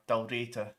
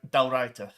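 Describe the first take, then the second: First: Dalraita said "dal-RAY-ta"; Dalraita with ay vowel. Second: Dalraita said "dal-RYE-ta"; stressed long-i sound in the middle of Dalraita; Dalraita with eye vowel. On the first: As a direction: say the middle of Dalraita like "ray", not "rye". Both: Shown as a demonstration. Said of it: "I don't know how to pronounce it".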